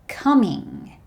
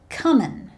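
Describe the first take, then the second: First: The ending is a full 'ing' sound. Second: The ending is a shortened 'in' sound.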